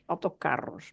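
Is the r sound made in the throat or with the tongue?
tongue. The r is made with the tongue. This is how it is said in central Portugal. "here in central Portugal, ... we say with our tongue"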